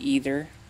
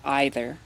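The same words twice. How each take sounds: First: It is said in the more American way. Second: It is said in the less American way.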